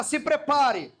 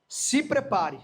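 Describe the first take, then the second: First: Prophet voice. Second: Said in the usual way. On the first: Shown as a demonstration. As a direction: warn like an Old Testament prophet. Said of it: "fala com voz de profeta". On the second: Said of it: "fala assim pra essa pessoa".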